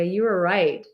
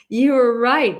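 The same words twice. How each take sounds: First: Said in the usual way. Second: Louder, higher with a laugh. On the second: Real, not acted. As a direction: laugh it out, slowly. Laughing repeat to Maria.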